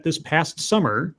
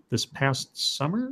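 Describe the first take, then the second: First: Said in the usual way. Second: "This past summer?" slow and softer, rising on "summer"; puzzled questioning echo. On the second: Real, not acted. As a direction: query "This past summer?" quietly, drawn out, voice lifting on "summer". Doubts what was just read.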